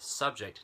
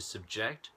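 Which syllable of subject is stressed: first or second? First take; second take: first; second. First: The stress is on the first syllable. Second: The stress is on the second syllable. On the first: It is used as a noun. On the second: It is used as a verb.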